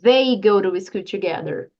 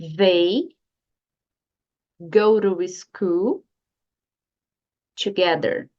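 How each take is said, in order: First: The sentence is spoken fast. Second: The sentence is spoken slowly. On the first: The speaker calls it wrong. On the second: The speaker calls it right.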